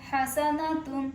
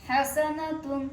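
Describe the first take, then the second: No difference in how they are said.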